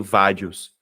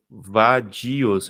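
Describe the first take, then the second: First: Vadios with dios squeezed into one syllable; vadios stressed on va. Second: Va-di-os split into syllables; vadios with stressed i. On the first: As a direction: show the wrong reading, VA-dios. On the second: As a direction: sound out vadios, separating di from os. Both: Shown as a demonstration. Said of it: "Eu não leio vadios".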